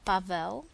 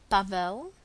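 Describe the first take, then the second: No difference in how they are said.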